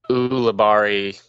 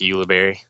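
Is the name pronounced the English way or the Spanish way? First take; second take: Spanish; English. First: The name is pronounced the Spanish way. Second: The name is pronounced the English way. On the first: "It's a Spanish name, so Ulibarri, that's like a right pronunciation" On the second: "And then in English, it's just Ulibarri"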